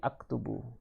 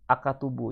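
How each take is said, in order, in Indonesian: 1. Bunyi k langsung menyambung ke bunyi t. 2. Vokal pendek 'a' mengikuti bunyi k. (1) "tapi aktubu" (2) "bukan bukannya uh, ak, akatubu ya"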